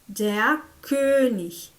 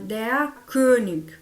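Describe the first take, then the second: First: The word ends in a soft hissing ch sound. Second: The word ends in a hard k sound. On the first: This is the standard German form. "que é no alemão clássico" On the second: This is the Bavarian regional form. "Já na Bavária, eles vão falar"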